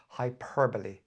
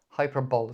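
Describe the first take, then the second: First: The word is said with its usual pronunciation. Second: The word is read the way it is spelled. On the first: The speaker calls it right. "It's pronounced hyperbole" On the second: The speaker calls it wrong. "it's spelled hyperbole"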